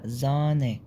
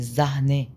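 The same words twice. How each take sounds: First: زانة with a long a and no h; long a, silent h. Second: زهنة with an audible h after the a; wrong with h. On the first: Teacher giving the correct form: long vowel. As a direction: stretch the a in زانة and drop the h. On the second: Teacher showing the wrong reading: h pronounced. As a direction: sound the h in زهنة. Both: Shown as a demonstration. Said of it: "الها لو قبلها فوكال بتنطق طويلة".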